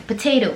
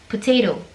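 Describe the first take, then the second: First: It is said with an American accent. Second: The same.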